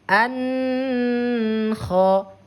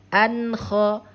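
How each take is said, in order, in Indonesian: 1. Bunyi n ditahan panjang dengan dengung sengau. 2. Bunyi n pendek dan jelas, tidak ditahan. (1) "salah ya" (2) "bunyi suara nun ini harus dibaca jelas"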